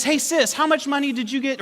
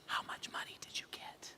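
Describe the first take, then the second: First: High, singled-out question to sister; teasing call-out. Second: Whispered, conspiratorial question to wife; secretive whisper. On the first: Brother mischievously asks his sister before the family, piping up. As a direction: pipe up so everyone can hear. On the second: Husband secretly asks wife about the money, whispering. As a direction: whisper it so nobody else hears. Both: Retold or imitated.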